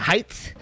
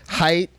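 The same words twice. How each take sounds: First: The word ends with an added th sound. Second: The word ends with a plain t sound. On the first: The speaker calls it wrong. "They add a TH to the end of height" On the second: The speaker calls it right. "That's how you're supposed to say it"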